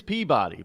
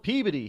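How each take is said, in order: First: Peabody with a full BAH vowel; spelled-out Peabody. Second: Peabody as PEA-buh-dee; local Peabody. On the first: Insisting on the spelling, Peabody as PEA-BAH-dee. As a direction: sound out Peabody as PEA-BOD-ee. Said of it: "It is Peabody". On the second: Telling what they call it here, Peabody as PEA-biddy. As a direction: squash the middle of Peabody to a short "buh". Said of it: "they call it Peabody here". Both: Shown as a demonstration.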